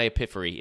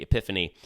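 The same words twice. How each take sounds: First: "epiphany" said as "epiffery"; epiphany mispronounced. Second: Said in the usual way. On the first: Shown as a demonstration. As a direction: say "epiphany" with an R replacing the N. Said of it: "Michael Scott says epiphany". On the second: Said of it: "I should have said epiphany".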